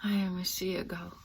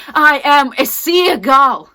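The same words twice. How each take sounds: First: Soft, subdued statement. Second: Loud, high, drawn-out wail; anguished cry. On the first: Actress naming herself a seagull, subdued and soft. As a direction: say it softly, almost to yourself. Monologue, first of two contrasting takes. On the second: Actress naming herself a seagull, anguished drawn-out shout. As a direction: cry it out slowly at full force. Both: Acted.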